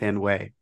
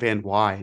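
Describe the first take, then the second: First: The second syllable rhymes with 'way'. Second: The second syllable rhymes with 'why'. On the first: The speaker calls it wrong. "not Van Way" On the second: The speaker calls it right. "his last name is Logan Van Wy"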